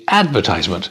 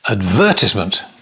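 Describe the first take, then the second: First: It is said in an American accent. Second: It is said in a British accent.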